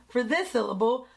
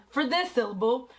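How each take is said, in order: Both takes have the same delivery.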